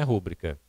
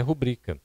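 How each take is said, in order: First: Rúbrica stressed on the first syllable, RÚ-bri-ca; wrong stress. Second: Rubrica stressed on the middle syllable, ru-BRI-ca; correct stress. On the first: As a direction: mispronounce rúbrica with the stress up front. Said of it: "não é rúbrica". (rúbrica com acento errado na primeira sílaba) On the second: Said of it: "O correto é rubrica". (rubrica com a tônica em BRI) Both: Shown as a demonstration.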